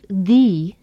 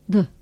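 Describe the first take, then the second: First: The vowel is said in its full form. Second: The vowel is weakened to a reduced form. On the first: "Instead of the" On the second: "The vowel sounds in the and is have been weakened or reduced"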